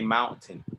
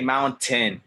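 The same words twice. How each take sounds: First: The T in the middle is very soft. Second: The T in the middle is strong and clear. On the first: The speaker calls it right. "very soft T" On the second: The speaker calls it wrong. "don't don't say mountain"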